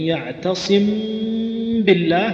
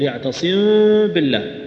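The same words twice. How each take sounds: First: The m is pressed hard, like a doubled sound. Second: The lips stay open, so the m barely closes. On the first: "صار فيه شدة وهذا لا يجوز" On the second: "فيفتح شفتيه"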